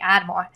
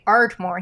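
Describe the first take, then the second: First: The r in the first syllable is dropped. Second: The r in the first syllable is pronounced. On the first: The speaker calls it wrong. "my Boston accent sometimes comes out" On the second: The speaker calls it right. "that's how you say it in Pennsylvania"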